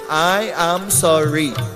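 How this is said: It is said in a mocking, sarcastic tone. The apology mocks the person asking for it. "that's sounding sarcastic"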